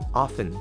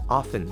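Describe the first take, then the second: First: The T is silent. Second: The T is silent.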